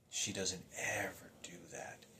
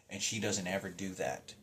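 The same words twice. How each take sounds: First: Soft unvoiced whisper, slow; hushed, stunned repeat. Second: Said in the usual way. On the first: Real, not acted. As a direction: breathe the line out in a whisper.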